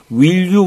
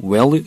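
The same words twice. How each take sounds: First: "Will you" with a full short i in WILL; textbook pronunciation. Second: "Well you", the vowel of will loosened to "eh"; real American pronunciation. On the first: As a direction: say "Will you" carefully as spelled. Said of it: "뭐뭐 이렇게 하지 않고요". ("Will you"를 글자 그대로 "윌유"로 발음) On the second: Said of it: "이렇게 발음하는 경우가 많습니다". ("Well you", will을 "웰"처럼 발음) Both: Shown as a demonstration.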